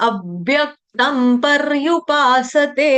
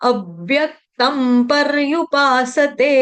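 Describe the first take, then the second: The two takes are said the same way.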